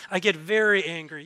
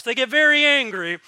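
First: Said in the usual way. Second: Louder, higher hammed-up anger; mock angry. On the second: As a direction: punch it out in mock outrage.

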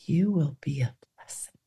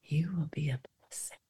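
First: Soft whispered blessing. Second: Barely audible, softer whisper; faint whisper. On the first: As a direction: whisper it gently, eyes closed. Guided meditation, God's voice. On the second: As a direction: breathe it out almost silently. Guided meditation, repeated softer. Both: Pretend.

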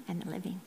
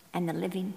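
First: Unvoiced whisper, fixing a slip under her breath; whispered correction. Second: Said in the usual way. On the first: Real, not acted. Reader correcting a slipped word in scripture, whispered. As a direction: whisper the corrected words quietly. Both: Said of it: "pardon me".

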